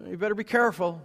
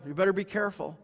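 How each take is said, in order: Both takes have the same delivery.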